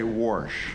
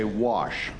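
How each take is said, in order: First: The word is said with an r sound. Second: The word is said without an r sound. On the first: "I will say warsh" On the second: "somebody asking me to say wash"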